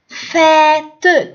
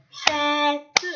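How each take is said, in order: First: Said in the usual way. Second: Fête slowly split as fê-te; syllable by syllable. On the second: Shown as a demonstration. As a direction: tap out fête with the final e as its own syllable. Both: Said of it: "Tapez le mot".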